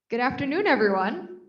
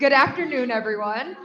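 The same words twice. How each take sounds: First: It is said with ordinary, low energy. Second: It is said with more energy and loudness.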